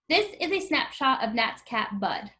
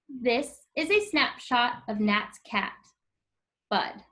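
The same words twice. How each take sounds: First: It runs straight on with no pause before 'Bud'. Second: It has a clear pause between 'cat' and 'Bud'. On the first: "let's try reading the sentence without using the comma" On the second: "See how there's a pause in between the word cat and bud?"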